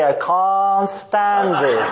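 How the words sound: It is said in a British accent. "study British English phonetics and master it"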